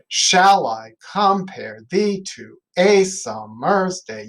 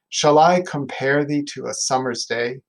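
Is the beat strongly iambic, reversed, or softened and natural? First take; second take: reversed; softened. First: Stress falls on the odd, normally weak syllables. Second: The beat is softened into natural speech.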